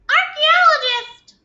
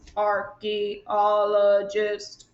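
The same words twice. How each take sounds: First: The word is said in a tiny high voice. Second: The word is said in a flat mechanical voice. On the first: "Can you say it in a mouse voice?" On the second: "Can you say it in a robot voice?"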